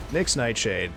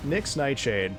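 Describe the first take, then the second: No difference in how they are said.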